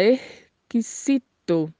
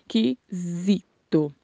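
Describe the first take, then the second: First: "erquisito" with a faded X and a hissed S; very slow "erquisito", X nearly swallowed, S never Z; Spanish pronunciation. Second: "Esquisito" in slow separate syllables, buzzed Z; Portuguese Z sound. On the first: Teacher contrasts Spanish with Portuguese, slow "erquisito" with a softened X. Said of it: "Esse X é pronunciado, é, meio sumido". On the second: Teacher repeats the Portuguese word, slow "Esquisito" with a Z sound. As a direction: slowly sound out "Esquisito" with a voiced Z. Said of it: "com som de Z". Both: Shown as a demonstration.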